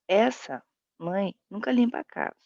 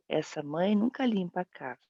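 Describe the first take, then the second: First: There is a pause inside the sentence. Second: It is said without any internal pause.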